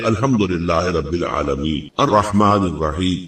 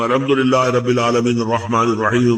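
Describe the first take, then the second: First: There is a clear pause between the verses. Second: The verses run together without a pause.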